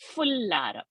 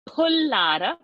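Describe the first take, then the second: First: The word starts with an f sound. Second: The word starts with a breathy p sound. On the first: The speaker calls it wrong. "not fullara" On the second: The speaker calls it right. "it is pullara"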